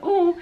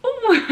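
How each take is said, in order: First: A short pained "Oh", louder and higher. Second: A much higher, louder cry of "Oh"; sharp pained oh. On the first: Patient reacting to the injection, pained gasp. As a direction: gasp out the oh as the needle hurts. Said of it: "And I was like". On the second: Patient at the worst injection, sharp cry. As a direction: yelp the oh as pain spikes. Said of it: "and then it was like". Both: Retold or imitated.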